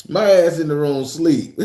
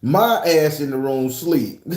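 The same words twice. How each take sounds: First: Punchline laughed out, a bit louder; laughing through it. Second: Said in the usual way. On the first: Shown as a demonstration. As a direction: giggle while you repeat it. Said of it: "repeated with a laugh". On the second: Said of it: "repeats the punchline".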